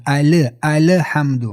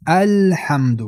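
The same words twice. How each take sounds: First: 'الحمد' with an extra vowel after l, ali-hamd; wrongly bounced lam. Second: 'الحمد' with l joined straight to h; unbounced lam. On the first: Teacher mimics common error, lam released with echo. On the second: Teacher corrects the error, clean lam without echo. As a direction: say 'الحمد' with a still, held l. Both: Shown as a demonstration.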